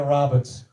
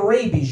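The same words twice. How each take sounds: First: Italian dad's slip, short-a "rabbits"; mispronounced rabies. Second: Said in the usual way. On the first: Acted. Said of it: "You don't wanna get rabies". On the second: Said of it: "You have rabbits".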